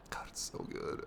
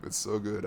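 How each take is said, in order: First: Breathless whisper of adoration. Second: Said in the usual way. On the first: Real, not acted. Gamer whispering to viewers about the game she loves. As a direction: whisper it like a secret you treasure.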